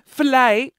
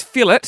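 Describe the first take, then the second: First: Fillet said fuh-LAY, French style; fillet the fancy way. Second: Fillet said FILL-it; fillet the plain way. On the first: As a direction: fillet with a silent t, stress on the second part. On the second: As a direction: fillet with the t sounded, stress on the first part. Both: Shown as a demonstration. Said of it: "it's fillet".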